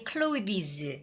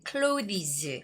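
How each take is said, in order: The two takes are said the same way.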